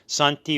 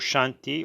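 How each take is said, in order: First: The word begins with a plain s sound. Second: The word begins with a sh sound.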